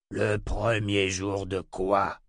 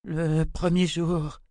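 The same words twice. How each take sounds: First: Slow, heavy incredulous question; drawn-out imperious question at normal pitch; exclaiming tyrant. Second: High, slow dazed woman's voice; eerie high-pitched delirium; deranged babbling. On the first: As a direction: echo her words slowly, demanding sense. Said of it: "s'écria Jagang". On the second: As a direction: utter it high and drawn out, as if entranced. Deranged sister babbles incoherently. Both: A narrator's reading.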